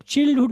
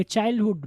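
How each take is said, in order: First: Short i at the start of चाइल्डहुड; mispronunciation demo. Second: Long first vowel in चाइल्डहुड; correct pronunciation. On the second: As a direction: model चाइल्डहुड with an eye vowel. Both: Shown as a demonstration. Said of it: "इसको आप चाइल्डहुड नहीं पढ़ेंगे".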